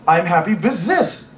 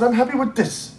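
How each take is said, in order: First: "this" said as "zis", "with" as "viz". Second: "with this" said carefully with an English th, no z. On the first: Quoting her accent back at her, "this" pronounced "zis". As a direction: mimic a German saying "with this" as "viz zis". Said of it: "turn them into Z's". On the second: German friend denies it, "with this" pronounced with careful th. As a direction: imitate her correcting "this" to a proper th. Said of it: "I did not. I said". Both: Retold or imitated.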